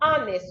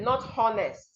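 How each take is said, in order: First: The word begins without any H sound. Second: The word begins with an audible H sound. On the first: The speaker calls it right. "I am being honest with you" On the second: The speaker calls it wrong.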